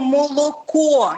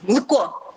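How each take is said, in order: First: Every o is pronounced as a full vowel. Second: The unstressed vowels are reduced and swallowed. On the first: This is the Ukrainian pronunciation. The speaker calls it right. "яке в нас звучить «о»" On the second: This is the Russian pronunciation. The speaker calls it wrong. "У них все з'їдається"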